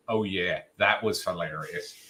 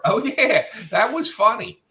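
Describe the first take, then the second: First: Dry, sarcastic, low oh yeah; deadpan it like you don't mean it; flat sarcastic. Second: High, bright, excited oh yeah; genuinely amused. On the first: Imitating Adam's reply as dry sarcasm. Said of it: "if that's like this". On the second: Imitating Adam's reply as delighted and sincere. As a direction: sound like you truly loved it. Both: Retold or imitated.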